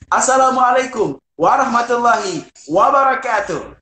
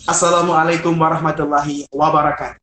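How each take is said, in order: First: It is said drawn out and lengthened. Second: It is said briskly, without lengthening.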